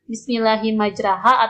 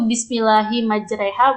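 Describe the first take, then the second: First: The vowel after r sounds like a. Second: The vowel after r sounds like e. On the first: The speaker calls it wrong. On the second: The speaker calls it right. "menggunakan huruf E"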